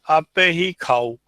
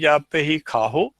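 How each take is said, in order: First: The ending is a plain O vowel, no H. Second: An H sound comes before the final O. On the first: The speaker calls it right. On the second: The speaker calls it wrong.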